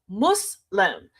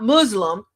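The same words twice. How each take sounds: First: The middle consonant is a hissing s sound. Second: The middle consonant is a buzzing z sound. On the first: The speaker calls it right. "M U S" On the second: The speaker calls it wrong. "not M U Z"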